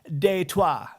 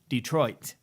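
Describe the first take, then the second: First: It is pronounced the French way. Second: It is pronounced the American way.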